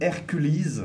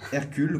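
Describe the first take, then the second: First: The name is pronounced the English way. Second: The name is pronounced the French way.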